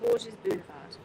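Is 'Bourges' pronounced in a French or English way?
English. Bourges is given an English-style pronunciation. The speaker calls it right. "They call it"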